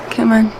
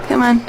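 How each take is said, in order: Both takes have the same delivery.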